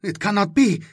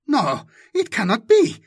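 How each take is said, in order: First: Said in the usual way. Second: Higher, louder denial ending on a rise; rising disbelief. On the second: Acted. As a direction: insist again, more shaken.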